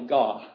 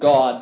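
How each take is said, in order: First: The final D is voiceless, almost silent. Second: The final D is voiced. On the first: "a voiceless D" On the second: "a voice D"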